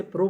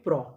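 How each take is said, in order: First: प्रो with a closed O, as "pro"; rejected pronunciation. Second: प्रो with an open O, like "praw"; taught pronunciation. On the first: Teacher showing how not to read P-R-O, प्रो with closed O. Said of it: "ना हम इसे प्रो पढ़ते हैं". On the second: Teacher answering how P-R-O is read, प्रो with open O. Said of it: "इसे क्या पढ़ते हैं". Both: Shown as a demonstration.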